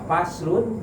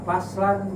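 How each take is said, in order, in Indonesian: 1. Kata ini berakhir dengan bunyi -un. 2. Kata ini berakhir dengan bunyi -an. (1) "bisa dibaca faslun" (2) "bisa dibaca faslan"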